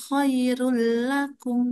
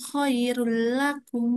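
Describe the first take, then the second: Both takes have the same delivery.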